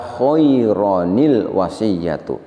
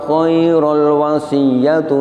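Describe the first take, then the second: First: An added 'ni' sound links the word to the l. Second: The tanwin merges straight into the l, no n. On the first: The speaker calls it right. "tanwinnya diganti dengan nun iwad" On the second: The speaker calls it wrong. "Kita baca khairul dengan cara diidghamkan. Ini tidak pas"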